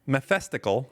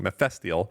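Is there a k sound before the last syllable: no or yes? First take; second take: yes; no. First: A k sound comes before the last syllable. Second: No k sound comes before the last syllable. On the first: The speaker calls it wrong. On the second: The speaker calls it right.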